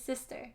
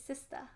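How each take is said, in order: First: It is said in an American accent. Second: It is said in a British accent. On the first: "in America" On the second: "In England"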